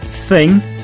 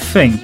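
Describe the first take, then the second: First: The word begins with a th sound. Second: The word begins with an f sound. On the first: "instead of thing" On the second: "The unvoiced th sound becomes a f sound"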